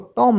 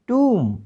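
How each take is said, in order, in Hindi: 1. स्वर एक छोटी o ध्वनि है। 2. स्वर एक लंबी oo ध्वनि है। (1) "इसको टॉम नहीं पढ़ना" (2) "टी ओ एम बी टूम"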